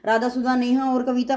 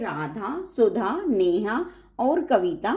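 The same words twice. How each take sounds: First: The names are run together without pauses. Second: There are short pauses between the names. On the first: The names blur together and the sense is lost. The speaker calls it wrong. "अगर इकट्ठा बोलेंगे तो फिर वो बात नहीं लगेगा" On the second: Each person is shown as separate. The speaker calls it right. "Radha के बाद जो हम वेट किया, यानी कि जो रुक रुक के"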